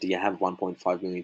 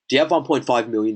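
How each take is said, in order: First: It is said in a soft, casual tone. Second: It is said in a blunt, pushy tone. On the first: The question is light and easy to brush off. The speaker calls it right. "it's a silly question" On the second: The question puts pressure on the listener. The speaker calls it wrong. "that's just pretty full on"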